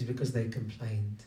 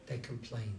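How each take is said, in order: First: Said in the usual way. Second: Much softer, falling repeat; a quiet echo of the phrase. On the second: Shown as a demonstration. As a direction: let it drop to a near hush. Preacher echoes key phrase softly.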